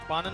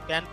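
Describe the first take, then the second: First: The vowel is a long open 'aa' sound. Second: The vowel is a short front 'ae' sound. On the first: The speaker calls it wrong. "इसको पान नहीं" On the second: The speaker calls it right. "पैन पढ़ा जाता है"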